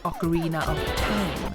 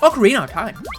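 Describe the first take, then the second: First: The word 'of' is clearly pronounced. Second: The word 'of' is slurred away entirely. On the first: "you don't say Ocarina of Time" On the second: "A lot of Americans just like, it's like slur out their their speech"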